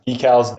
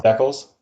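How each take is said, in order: First: DECALS as "DEE-kals"; long-E decals. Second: DECALS as "DECK-uls"; short-E decals. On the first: Host offers a Canada-US example, long E. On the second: Host offers a Canada-US example, short E. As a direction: say DECALS to rhyme with "heckles". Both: Shown as a demonstration. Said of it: "we say words, like, completely different".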